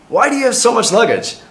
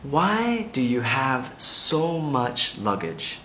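First: It is said at normal speed. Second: It is said very slowly.

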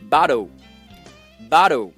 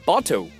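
First: It is said in American style, t close to d. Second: It is said in British style, with a clear t. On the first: "美国人会说bottle" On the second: "英国人呢会说bottle"

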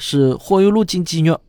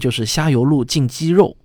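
First: It is said in Shaoxing dialect. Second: It is said in standard Mandarin.

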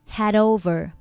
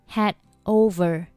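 First: The final d links smoothly into 'over'. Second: The final d of 'had' is not pronounced. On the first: "连读成had over" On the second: "had 末尾的不发音"

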